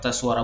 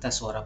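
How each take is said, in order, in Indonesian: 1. Suaranya keras dan kuat. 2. Suaranya pelan dan lembut. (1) "tes suara besar" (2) "tes suara pelan"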